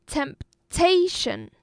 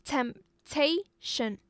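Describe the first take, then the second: First: Temptation with a loud, drawn-out TA; slow Temptation, punching the middle syllable; Temptation, pausing before a high, strong TA; stress on second syllable. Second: Temptation in three separate slow beats; syllable by syllable. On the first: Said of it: "on the second syllable". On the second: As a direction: temptation split into temp, ta, tion. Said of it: "It's a three-syllable noun". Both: Shown as a demonstration.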